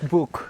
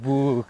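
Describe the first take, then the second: First: The vowel is short, unlike in moon. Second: The vowel is long, like in moon. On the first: The speaker calls it right. "It's not the it's book. It's not like moon" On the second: The speaker calls it wrong. "They're like book, like moon"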